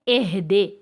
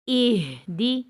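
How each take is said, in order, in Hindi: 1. स्वर खुले हैं, जैसे 'eh' और 'deh'। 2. स्वर बंद हैं, जैसे 'ih' और 'dee'।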